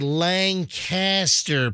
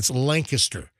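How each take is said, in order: First: The middle syllable is a full 'cast'. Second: The middle syllable is reduced and unstressed. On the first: The speaker calls it wrong. "You don't say Lancaster" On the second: The speaker calls it right. "you got to say it right. It's Lancaster"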